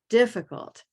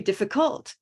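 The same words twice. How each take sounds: First: The stress falls on the first syllable. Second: The stress falls on a later syllable. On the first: The speaker calls it right. "It is definitely here in the first syllable" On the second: The speaker calls it wrong. "Or it could be difficult, but it's not"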